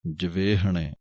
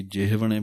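First: ਜਵੇਹਣੇ with an e vowel on the v, javehne; ਸ਼ੁੱਧ ਜਵੇਹਣੇ; correct pronunciation. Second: ਜਿਹਵਣੇ with the h before the v; the mistaken ਜਿਹਵਣੇ; ਗਲਤ ਉਚਾਰਨ; common wrong pronunciation. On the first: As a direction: say ਜਵੇਹਣੇ carefully. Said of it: "ਵਾਵੇ ਉੱਤੇ ਲਾਂ ਹੈ". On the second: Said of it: "ਕਈ ਜਿਹਵਣੇ ਬੋਲ ਦਿੰਦੇ ਹਨ". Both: Shown as a demonstration.

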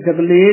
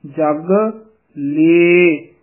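First: ਜਗ ਲੇ said plainly, the wrong way; quick, ordinary ਜਗ ਲੇ; wrong form. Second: ਜਗ, pause, ਲੇ stressed; correct pronunciation. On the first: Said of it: "ਜਗ ਲੇ ਨਹੀਂ ਕਹਿ ਦੇਣਾ ਹੈ". (ਜਗ ਲੇ ਆਮ ਤਰੀਕੇ ਨਾਲ, ਗਲਤ) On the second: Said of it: "ਇਹਦਾ ਉਚਾਰਨ ਹੈ". (ਜਗ ... ਲੇ, ਲੇ ਉੱਤੇ ਜ਼ੋਰ) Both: Shown as a demonstration.

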